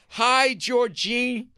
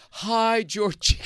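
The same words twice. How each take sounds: First: Slow, higher, sure-of-himself hello; confident host greeting. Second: Higher, gentle mock-tender hi; sensitive greeting. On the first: Retold or imitated. Host leading the crowd, in a slow confident greeting. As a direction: stretch out the hi like a showman. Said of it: "He goes like this". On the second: Host playing his sensitive side, in a mock-tender hello. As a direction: fake a tender, caring hello. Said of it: "This is the way he said it".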